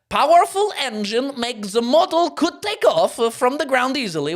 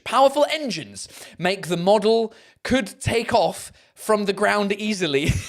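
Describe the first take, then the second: First: It is read in a put-on Borat accent. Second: It is read in the speaker's own accent.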